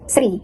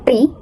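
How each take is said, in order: First: The word begins with an S sound. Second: The word begins with a T sound. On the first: "or sri" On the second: "three might sound like tri"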